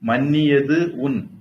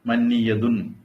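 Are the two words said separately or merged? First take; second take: separately; merged. First: The two words are said separately. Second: The two words merge into one word.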